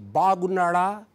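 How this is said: The vowels are long and English-like. The speaker calls it wrong. "No, that is English"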